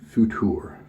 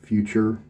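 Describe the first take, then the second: First: It is said without an American pronunciation. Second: It is said like the English word future.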